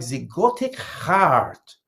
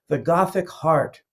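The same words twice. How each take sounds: First: It is said in a thick French accent. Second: It is said in a plain accent.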